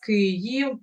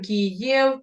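First: It is pronounced the Ukrainian way, sounding deeper. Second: It is pronounced the Russian way, with an ie sound. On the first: "а в нас «Київ», ... в нас мова трошки глибша" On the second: "Російська мова, вона більш на «іє», там «Київ»"

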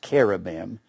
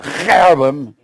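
First: It is said plainly, without guttural sounds. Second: It is said with harsh guttural throat sounds. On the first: "It's pronounced cherubim" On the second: "they had so many guttural sounds"

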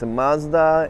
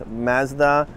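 First: It is said the American way. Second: It is said the Canadian way. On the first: "In the US, it's Mazda" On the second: "right here in Canada, we pronounce Mazda"

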